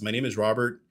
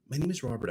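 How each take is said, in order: First: It is said bluntly and directly. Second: It is said softly and hesitantly.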